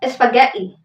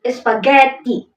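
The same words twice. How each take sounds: First: The g is pronounced as a softer sound. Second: The g is pronounced as a hard sound. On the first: The speaker calls it right. "the correct spaghetti" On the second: The speaker calls it wrong. "many English speakers pronounce it with a hard G"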